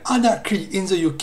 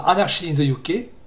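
First: The phrase is pronounced with English sounds. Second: The phrase is pronounced with French sounds. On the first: The speaker calls it right. "c'est bien Anarchy in the UK" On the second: The speaker calls it wrong. "et non pas Anarchy in the UK"

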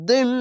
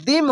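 First: The first consonant is heavy, with the mouth full. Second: The first consonant is light, with the mouth not full. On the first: The speaker calls it right. "এটি মোটা অক্ষর, মুখটা ভরে আসবে" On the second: The speaker calls it wrong. "এখানে দিম হবে না"

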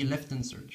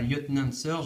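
First: The name is said with English pronunciation. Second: The name is said with French pronunciation. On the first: The speaker calls it right. "on dit Lieutenant Surge. Hein. La prononciation anglaise" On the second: The speaker calls it wrong. "On ne dit pas Lieutenant Surge"

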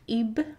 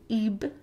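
First: The final b sound is released and extended. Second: The final b sound is released and extended.

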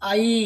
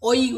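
First: The vowel sounds like ai. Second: The vowel sounds like oi. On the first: The speaker calls it right. "এই উচ্চারণটা হচ্ছে আই" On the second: The speaker calls it wrong. "অনেকে উচ্চারণ করতে গিয়ে ওই উচ্চারণ করে ফেলি"

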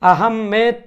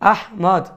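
First: The name ends with a 'med' sound. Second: The name ends with a rounded 'mod' sound. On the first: "আহমেদ ... উচ্চারণ করার কোনো সুযোগ নেই" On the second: "Bangla ভাষা হিসেবে সর্বোচ্চ আহমদ এটা বলা যেতে পারে"

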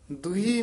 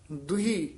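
Both takes have the same delivery.

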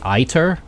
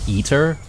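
First: The first syllable sounds like 'eye'. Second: The first syllable sounds like 'ee'. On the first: The speaker calls it right. "I think maybe this is supposed to be Iter" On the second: The speaker calls it wrong. "I've been pronouncing it incorrectly here"

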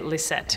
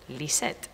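First: The name is said with an American English pronunciation. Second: The name is said with a Spanish pronunciation. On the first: This is the everyday way the name's owner says it. "which is the most incorrect way to pronounce my name" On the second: This is how it is said when speaking Spanish. "my mother says Lisette when she speaks Spanish"

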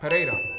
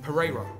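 First: The name is said in a non-English accent. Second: The name is said in an English accent.

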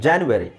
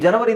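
First: It is said as janyuary, the English way. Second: It is said as janavari, the Kannada way. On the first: This is the form used when reading English. "So when you read English, ಜಾನ್ಯುವರಿ ಅಂತ ಹೇಳಬೇಕು" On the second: This is the form used when speaking Kannada. "ಜನವರಿ ಅಂತ ನೀವು ಕನ್ನಡದಲ್ಲಿ ಹೇಳಬೇಕಾದ್ರೆ ಹೇಳಿ"

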